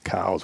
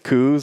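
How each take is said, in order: First: The name rhymes with the word 'cows'. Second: The name rhymes with the word 'coos'. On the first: This is the established pronunciation. "It's always been cows" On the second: This is a popular alternative pronunciation. "I would rather pronounce it coos"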